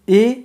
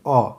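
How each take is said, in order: First: The vowel is a full 'ay' sound. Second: The vowel is a reduced 'uh' sound.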